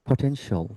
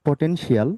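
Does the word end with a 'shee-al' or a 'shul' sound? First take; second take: shul; shee-al. First: The ending is said as one syllable, 'shul'. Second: The ending is said as two syllables, 'shee-al'. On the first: The speaker calls it right. "সে বলতেছে কি" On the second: The speaker calls it wrong. "আপনি বলতেছেন"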